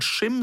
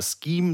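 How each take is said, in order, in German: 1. Es beginnt mit einem deutschen sch-Laut. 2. Es beginnt mit einem englischen sk-Laut. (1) "du kannst sowohl Schim sagen" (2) "du kannst es auch englisch aussprechen"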